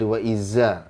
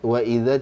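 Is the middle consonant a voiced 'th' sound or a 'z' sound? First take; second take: z sound; th sound. First: The middle consonant sounds like a z. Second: The middle consonant is a voiced th sound. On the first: The speaker calls it wrong. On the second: The speaker calls it right.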